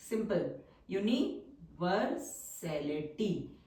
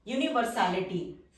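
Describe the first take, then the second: First: universality said slowly, syllable by syllable; slow repeat. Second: Said in the usual way. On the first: Shown as a demonstration. (Universality धीमे-धीमे दोहराना)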